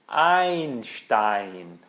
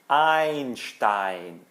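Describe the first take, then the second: The two takes are said the same way.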